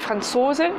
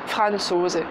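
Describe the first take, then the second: First: The stress is on the second syllable. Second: The stress is on the first syllable. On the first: The speaker calls it right. "L'accentuation est sur la deuxième syllabe" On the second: The speaker calls it wrong. "et pas Franzose"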